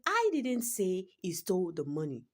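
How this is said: The word I carries the main stress. Someone else said it. "the word I is capitalized in that statement"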